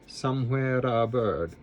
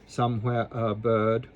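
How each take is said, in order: First: The R in somewhere is a quick flip. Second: The R in somewhere is left out. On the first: "We're going to flip the R" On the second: "Or you can just leave the R out"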